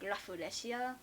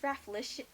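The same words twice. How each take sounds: First: It is said with Japanese pronunciation. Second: It is said with an English-style pronunciation.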